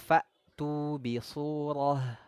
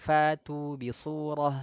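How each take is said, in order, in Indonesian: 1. Bunyi hamzah setelah 'fa' ditekan dan jelas. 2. Bunyi hamzah setelah 'fa' lemah atau hilang. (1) "ini harus kita tekan suaranya" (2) "Jangan sampai nanti bunyinya"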